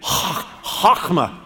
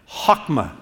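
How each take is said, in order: First: The first sound is harsh, scraped in the throat. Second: The first sound is soft, without throaty friction. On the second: "Say that with me"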